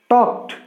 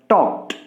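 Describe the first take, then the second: Both takes have the same delivery.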